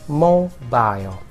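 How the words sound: It is said with a British pronunciation. "British people would say mobile"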